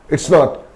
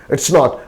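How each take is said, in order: No difference in how they are said.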